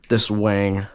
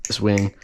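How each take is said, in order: First: "wang" with the vowel stretched in a Southern American accent. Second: Said in the usual way. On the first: Real, not acted. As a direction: toss off "this wang" in a light Southern twang. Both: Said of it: "I don't know why I said wing in, like, a southern accent".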